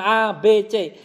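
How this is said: The letters are named with Indonesian letter sounds. "kita di Indonesia kan A, B, C, itu lebih mudah"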